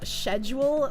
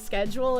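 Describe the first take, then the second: First: It is said in a British way. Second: It is said in a non-British way. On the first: "that British tendency to say like schedule" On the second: "People who say schedule as"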